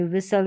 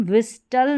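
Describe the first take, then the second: First: विसल with silent T; correct pronunciation. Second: विस्टल with the T sounded; wrong pronunciation. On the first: Teacher giving the right reading, विसल without T. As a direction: say विसल, s straight into l. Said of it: "विसल पढ़ेंगे". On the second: Teacher showing what not to read, विस्टल with spoken T. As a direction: say विस्टल with an audible t. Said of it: "विस्टल नहीं पढ़ेंगे". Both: Shown as a demonstration.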